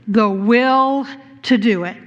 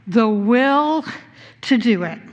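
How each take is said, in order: Both takes have the same delivery.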